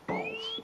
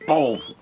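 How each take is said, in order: First: It is said imitating Kate's voice. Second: It is said in his own natural voice.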